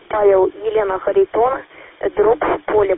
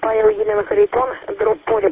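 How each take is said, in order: First: The callsign is spoken slowly and distinctly. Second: The callsign is spoken quickly, in a rapid burst. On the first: The speaker calls it right. "помедленнее буду говорить" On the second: The speaker calls it wrong. "не надо говорить как калашник. Говорите медленно"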